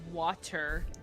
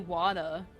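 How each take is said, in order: First: The middle consonant is a crisp t. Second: The middle consonant sounds like a soft d. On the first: "instead of water" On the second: "I also say wada"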